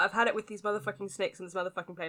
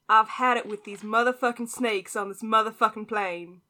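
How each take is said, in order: First: It is said in the speaker's own British accent. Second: It is said in an attempted American accent.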